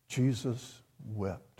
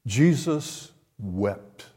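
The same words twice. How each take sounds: First: Slow and much softer, almost to himself; Jesus wept, quiet and slow; hushed repeat. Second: Each word slow and weighty; Jesus wept, slow and grave; slow solemn reading. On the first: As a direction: drop to a hushed, reverent echo. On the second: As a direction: let the verse sink in slowly. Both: Shown as a demonstration. Repeats the verse for weight.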